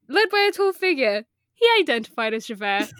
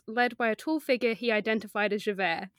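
First: There is a pause after figure. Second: It runs on with no pause after figure.

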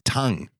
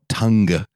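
First: The word ends without any hard G sound. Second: The word ends with an audible hard G. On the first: The speaker calls it right. "It's tongue" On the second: The speaker calls it wrong. "when British people really pronounce the G? ... It's not tongue"

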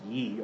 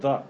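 First: The word begins with a y sound. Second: The word begins with a th sound. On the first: The speaker calls it wrong. "that's a mispronunciation. It's not pronounced ye" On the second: The speaker calls it right. "It's actually pronounced the"

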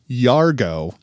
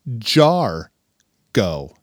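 First: The name begins with a "y" sound. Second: The name begins with a "j" sound. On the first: The speaker calls it wrong. "You have been saying Yargo for two and a half fucking months" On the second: The speaker calls it right. "It's Jargo, as in a jar, like of peanut butter, not a yar"

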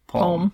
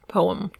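First: The word is said with one syllable. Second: The word is said with two syllables. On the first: "pronounce it as though it just had like the one syllable"

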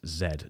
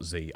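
First: The letter is said the British way. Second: The letter is said the American way. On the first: The speaker calls it right. "please don't go American on us" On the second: The speaker calls it wrong. "not Z"

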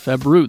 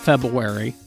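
First: The first r sound is clearly pronounced. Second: The first r sound is dropped. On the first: The speaker calls it right. "It's February. There's an R-U in there" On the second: The speaker calls it wrong. "It's not February"

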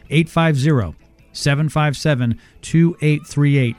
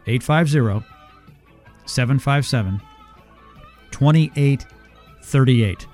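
First: The number is read at a faster pace. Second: The number is read at a slower pace.

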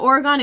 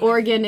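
First: It uses the outsider pronunciation of the name. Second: It uses the local pronunciation of the name. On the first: The speaker is not from the state. "So Oregon if you're not" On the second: The speaker is from the state. "but Oregon if you are"

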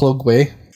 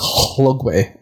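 First: The name starts with a plain voiced L sound. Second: The name starts with a breathy voiceless HL sound. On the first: The speaker calls it wrong. "So I'll call it Lugway" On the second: The speaker calls it right. "it's actually usually pronounced like HL, so it's Hlugway"

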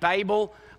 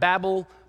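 First: Babel is pronounced the Australian way. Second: Babel is pronounced the listeners' non-Australian way. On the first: The speaker calls it right. "I'm saying it right. This word really is a situation where this is actually how we say it in Australia" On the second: The speaker calls it wrong. "You're saying it wrong"

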